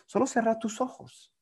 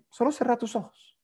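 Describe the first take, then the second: First: Soft, lifted hypnotist voice; calm hypnotist command; soft hypnotic instruction. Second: Soft, lifted hypnotist voice, stress on solo; calm hypnotist command; soft hypnotic instruction. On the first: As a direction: gently tell them to close their eyes. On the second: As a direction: gently repeat the instruction. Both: Shown as a demonstration. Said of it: "siempre es recomendable preguntar".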